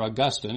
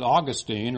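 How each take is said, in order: First: Augustine said as uh-GUS-tin; second pronunciation of Augustine. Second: Put-on Augustine said as AW-gus-teen; first pronunciation of Augustine. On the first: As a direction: stress the middle syllable of Augustine, ending in a short -tin. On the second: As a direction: stress the first syllable of Augustine, ending in -teen. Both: Shown as a demonstration. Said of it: "it's pronounced both ways".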